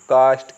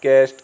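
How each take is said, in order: First: The vowel is a long open 'aa' sound. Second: The vowel is a flatter 'ae' sound. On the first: The speaker calls it right. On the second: The speaker calls it wrong.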